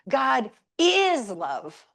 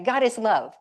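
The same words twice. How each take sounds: First: The word is is stressed. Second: The word is is not stressed.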